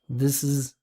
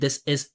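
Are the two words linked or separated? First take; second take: linked; separated. First: The two words run together as one linked unit. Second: Each word is pronounced separately and distinctly. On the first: The speaker calls it right. "Listen to how I pronounce it" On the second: The speaker calls it wrong. "I'm not saying this is"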